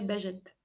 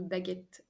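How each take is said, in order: First: The middle consonant is a soft J sound. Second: The middle consonant is a hard G sound. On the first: The speaker calls it wrong. "Sinon, ça ferait bagette" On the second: The speaker calls it right. "on veut baguette"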